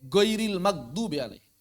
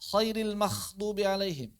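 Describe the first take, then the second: First: The first consonant is a hard g sound. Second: The first consonant is a raspy kh sound. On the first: "Atau menjadi ge" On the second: "Mengubah menjadi kha"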